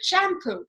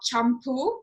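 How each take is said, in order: First: It is said with the anglicized British pronunciation. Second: It is said with the original Indian pronunciation. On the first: This is the form English speakers adopted. "the British were not able to pronounce it that way and they called it shampoo" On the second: This is the original word in Indian languages. "the word is called champu"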